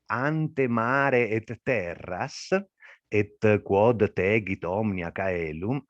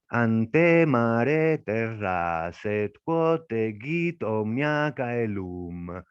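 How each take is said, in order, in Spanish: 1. Las palabras llevan su acento normal de todos los días. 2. El acento sigue el pulso del verso, no el acento de la palabra. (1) "la lectura normal es" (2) "En poesía sería algo como"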